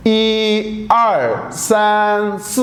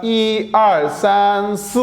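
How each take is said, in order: First: Each syllable stretched out slowly; teacher sounding out the word very slowly; slow drawn-out reading. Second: Said in the usual way. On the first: Shown as a demonstration. Teacher to students, spelling out the word very slowly. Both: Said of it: "अगर मैं चार तक इकट्ठा पढ़ूं".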